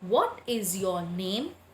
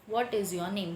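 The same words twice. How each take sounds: First: It is read with a questioning, asking tone. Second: It is read flatly, without a questioning tone. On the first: "That means I am asking you a question" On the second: "Just if I read"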